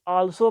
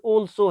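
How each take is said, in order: First: The first vowel sounds like 'ah'. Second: The first vowel sounds like 'aw'. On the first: The speaker calls it wrong. "कुछ आल्सो पढ़ते हैं" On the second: The speaker calls it right. "Word ये ऑल्सो है"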